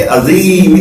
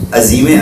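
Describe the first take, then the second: First: عظیم drawn out slowly with a clear open ع; careful azim. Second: عظیم said quickly and clipped; careless azim. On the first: Teacher contrasts the proper عظیم with a careless one. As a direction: stretch عظیم slowly so every sound is distinct. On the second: Teacher imitates the careless عظیم students often say. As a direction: run عظیم off fast the way people slip. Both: Shown as a demonstration. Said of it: "عظیم الگ ہے".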